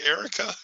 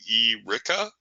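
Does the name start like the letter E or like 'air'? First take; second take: like air; letter E. First: The first syllable is said the usual way. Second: The first syllable is said like the letter E. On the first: The speaker calls it right. "Our names are the same except for the last letter" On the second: The speaker calls it wrong. "Do people go around calling you E. Ricka?"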